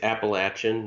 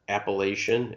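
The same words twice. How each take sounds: First: The stressed syllable sounds like 'latch'. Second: The stressed syllable sounds like 'lay'. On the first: The speaker calls it right. "It's Appalachian" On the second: The speaker calls it wrong. "not Appalachian"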